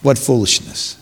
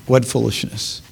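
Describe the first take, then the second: First: Said in the usual way. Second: Softer, dropped repeat of What foolishness; hushed second take; quiet echo. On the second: Shown as a demonstration. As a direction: let it fall away, shaking the head. Preacher repeats line, softer echo.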